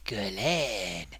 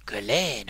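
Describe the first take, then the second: First: Guerlain said low and drawn out, a mock French flourish; French-ish Guerlain. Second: Said in the usual way. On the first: Shown as a demonstration. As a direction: savour Guerlain like a posh French name. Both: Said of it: "that sounds French, doesn't it?".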